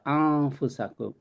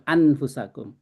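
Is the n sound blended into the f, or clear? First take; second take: blended; clear. First: The n blends nasally into the following f. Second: The n is pronounced clearly before the f. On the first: The speaker calls it right. "ini dibacanya lebur" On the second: The speaker calls it wrong. "bukan anfusakum"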